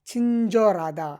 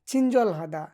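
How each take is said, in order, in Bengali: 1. মাঝখানের h শব্দটি বাদ যায় এবং মিশে যায়। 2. মাঝখানের h শব্দটি স্পষ্টভাবে উচ্চারিত হয়।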